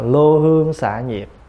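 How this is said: The first syllable is said with the vowel 'ô'. This is the older Northern reading of the text. "Ngày xưa bản kinh ngoài Bắc là lô hương xạ nhiệt"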